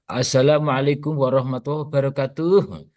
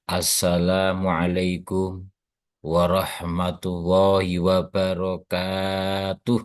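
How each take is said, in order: First: It is said in a showy, singsong performer's style. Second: It is said plainly, with the kaf slightly lengthened. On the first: The speaker calls it wrong. "itu salamnya penyanyi dangdut" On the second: The speaker calls it right. "kafnya agak dibaca panjang"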